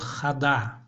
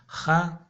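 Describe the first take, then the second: First: The second vowel is fully pronounced. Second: The second vowel is dropped or reduced. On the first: The speaker calls it wrong. "тот, кто не знает хакасского языка, он прочтет хада" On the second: The speaker calls it right. "но в хакасском языке не так"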